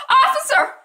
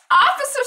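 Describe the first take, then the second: First: High, loud, laughing cry for help; laughing mock plea. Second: High, loud, laughing rising call; mock damsel in distress; laughing mock plea. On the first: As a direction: ham up a damsel's call. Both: Eva mockingly calls a passing cop.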